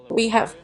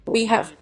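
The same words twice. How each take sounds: The two takes are said the same way.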